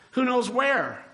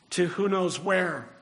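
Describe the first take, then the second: First: WHERE pitched high, then dropping away; emphatic repeat. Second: Said in the usual way. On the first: Shown as a demonstration. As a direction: stretch WHERE with a high, rhetorical swoop.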